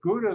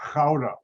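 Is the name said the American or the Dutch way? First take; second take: American; Dutch. First: The name is said with an American pronunciation. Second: The name is said with a Dutch pronunciation. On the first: "is how Americans pronounce it" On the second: "if you're in the Netherlands, is pronounced"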